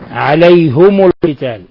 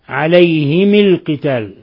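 First: Both the h and the m take a u vowel. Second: Both the h and the m take an i vowel. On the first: "بضم الهاء والميم" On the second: "بكسر الهاء والميم حالة الوصل"

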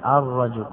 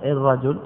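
First: The word begins with an 'a' vowel. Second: The word begins with an 'i' vowel. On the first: The speaker calls it right. "عدل عنه إلى الفتح، فقيل الرجل" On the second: The speaker calls it wrong. "لا نقول الرجل بكسر الهمزة"

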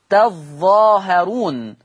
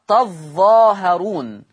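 No difference in how they are said.

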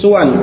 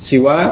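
First: The first vowel is u, ending short. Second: The first vowel is i, ending short. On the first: "suwan dengan dhammah pada huruf sin" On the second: "huruf pertama fa kalimah ini dibaca dengan kasrah"

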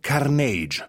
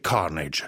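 First: The stress is on the second syllable. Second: The stress is on the first syllable. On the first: The speaker calls it wrong. "noi invece abbiamo detto Carnage. Abbiamo sbagliato l'accento, l'abbiamo messo sulla I dopo" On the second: The speaker calls it right. "Si dice Carnage"

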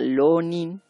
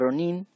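First: It begins with an l sound. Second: It begins with a strong trilled r. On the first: The speaker calls it right. "o bien como L. Entonces sería Lonin" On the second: The speaker calls it wrong. "No se pronuncia así porque en japonés no se puede pronunciar ese sonido tan fuerte de nuestra R fuerte"

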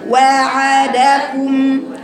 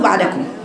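First: Each short vowel is given its full length. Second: The first short vowel is clipped and rushed. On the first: The speaker calls it right. "ثلاث حروف بثلاث مخارج، يبقى وعدكم" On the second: The speaker calls it wrong. "بنخطئ فيها يا بنات... بنختلس الفتحة"

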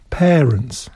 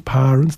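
First: The first vowel sounds like 'e'. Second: The first vowel sounds like 'a'. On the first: The speaker calls it right. "przez e" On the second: The speaker calls it wrong. "nie mówi się parents"

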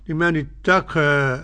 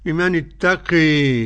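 First: The final vowel leans slightly toward 'ee'. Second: The final vowel leans strongly toward 'ee'. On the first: "القاب يشبه ايه الترقيق شوية" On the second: "بالإمالة الكبرى"

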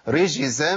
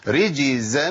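First: The middle consonant is a voiceless sh sound. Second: The middle consonant is a voiced j sound. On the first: The speaker calls it wrong. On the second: The speaker calls it right.

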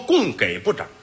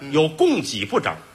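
First: The second syllable is pronounced gei. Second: The second syllable is pronounced ji. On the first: The speaker calls it wrong. "不能说供给部长" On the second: The speaker calls it right.

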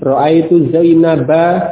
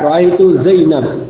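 First: The last word ends on a short a vowel. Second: The last word ends on a bare consonant. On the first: The word carries its grammatical case ending. "sesuai dengan kaidah nahwu" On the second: The reader stops at the end of the phrase. "Ketika dibaca dengan waqaf, maka huruf akhir tersebut menjadi sukun"

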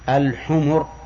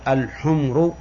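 First: The m is followed by a short u vowel. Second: The m has no vowel after it. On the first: It means donkeys, the plural of donkey. The speaker calls it right. "يجب أن تقول الحمر" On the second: It means red ones, the plural of red. The speaker calls it wrong. "بسكون الميم"

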